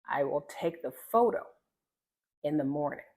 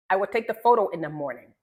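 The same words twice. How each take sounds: First: Unhurried phrases with a clear pause midway; slowed, enunciated. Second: Fast, louder rushed example; very choppy. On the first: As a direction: take your time and enunciate each word. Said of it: "you slow down, you enunciate". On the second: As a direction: rattle it off choppily. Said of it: "Very choppy". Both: Shown as a demonstration.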